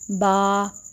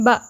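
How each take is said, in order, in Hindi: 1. स्वर लंबा खींचा गया है। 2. स्वर झटके के साथ कट जाता है। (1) "आप इसको ऐसे नहीं पढ़ेंगी ... इतना लंबा हमने इसको नहीं करना" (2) "इतनी जल्दी पढ़ दिया उसमें झटका सा महसूस हो रहा है, ऐसे नहीं पढ़ना"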